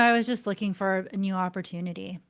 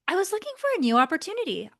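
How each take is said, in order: First: It is said with a sigh, sounding bored. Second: It is said brightly, sounding keen and motivated.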